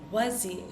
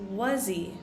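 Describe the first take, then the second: First: The h sound is dropped, joining the words. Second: The same.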